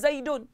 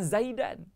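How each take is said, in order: First: The ending has an u vowel before n. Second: The ending has an a vowel before n. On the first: Zaid is the one who ate. The speaker calls it right. "Zaidun kena baca dengan Zaidun" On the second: The meaning of the sentence changes. The speaker calls it wrong. "Tak boleh baca dengan Zaidan"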